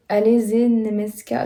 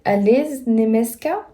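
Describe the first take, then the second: First: "ze" voiced as its own syllable; lone letter separated. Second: "z" run straight onto "Niemiecka"; lone letter blended. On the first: Learner puzzling over Slovak lone letters, "ze" as a separate syllable. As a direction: say "ze" with a vowel, apart from "Niemiecka". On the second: Learner puzzling over Slovak lone letters, "z" blended into the next word. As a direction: say "z" as a bare consonant joined to "Niemiecka". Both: Shown as a demonstration. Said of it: "il y a des lettres comme ça qui sont toutes seules".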